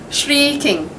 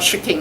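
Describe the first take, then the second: First: The first vowel is long and drawn out. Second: The first vowel is short and clipped. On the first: The speaker calls it right. "shrieking is a long sound" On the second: The speaker calls it wrong. "not shrieking"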